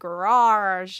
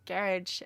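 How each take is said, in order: First: It is said in an American accent. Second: It is said in an English accent. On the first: "there's like the American accent" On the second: "they'd say garage"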